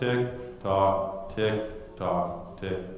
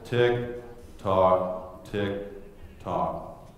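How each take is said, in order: First: It is said at a slower pace. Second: It is said at the slowest pace.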